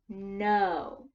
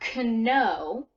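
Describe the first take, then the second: First: The word begins with an n sound. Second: The word begins with a k sound. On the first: The speaker calls it right. "It's no. It begins with the n sound" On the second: The speaker calls it wrong. "So we don't hear k, right? It's not kno"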